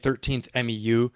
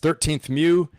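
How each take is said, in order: First: MEU is spelled out as three separate letters. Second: MEU is said as one short word. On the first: The speaker calls it wrong. "You don't say thirteenth M E U" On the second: The speaker calls it right. "You say it's a M U"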